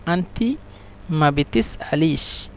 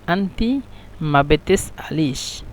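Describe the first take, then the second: No difference in how they are said.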